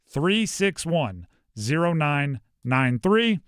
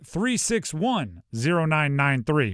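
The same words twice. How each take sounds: First: The number is said slowly and carefully. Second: The number is said at normal speed.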